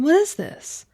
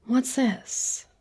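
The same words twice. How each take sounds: First: Thrilled to find cake waiting for her; delighted surprise. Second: Said in the usual way. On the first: Acted. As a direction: pitch jumps much higher, a bit louder, eager.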